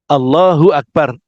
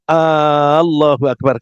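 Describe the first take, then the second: First: No vowel is lengthened beyond normal. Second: The first vowel a is held long. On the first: The speaker calls it right. "hati-hati ketika mengucapkan Allahu Akbar" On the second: The speaker calls it wrong. "A-nya panjang"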